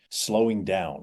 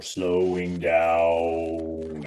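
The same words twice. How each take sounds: First: Said in the usual way. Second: Slowed-down slow-motion voice. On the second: Shown as a demonstration. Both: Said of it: "weird slow-mo voice trick".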